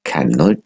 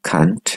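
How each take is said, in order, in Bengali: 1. এটি পূর্ণ রূপে, দুই দলে (দুই সিলেবলে) বলা হয়েছে। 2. এটি একটি ছোট, সংকুচিত দল হিসেবে বলা হয়েছে।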